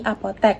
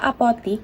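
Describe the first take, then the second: First: The last syllable has an e vowel. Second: The last syllable has an i vowel. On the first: The speaker calls it right. "diganti menjadi apotek ... pengucapannya juga benar" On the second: The speaker calls it wrong. "kata apotik diganti"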